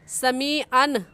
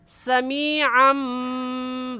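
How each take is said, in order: First: The word ends with a clear n sound. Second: The word ends with an m sound. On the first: The speaker calls it wrong. "आइन दो ज़बर अन कहना गलत है" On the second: The speaker calls it right. "इसको मीम के साथ मिलाएंगे"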